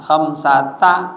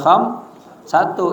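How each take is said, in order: First: The word ends in an 'a' vowel. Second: The word ends in a 'u' vowel. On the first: The speaker calls it right. "dibacanya mabni atas fathah" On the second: The speaker calls it wrong. "kagak boleh kham satu"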